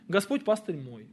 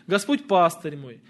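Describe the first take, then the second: First: The stress falls on the word мой. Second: The stress falls on the word пастырь. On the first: He is my own shepherd, not someone else's. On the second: He is the one who leads me.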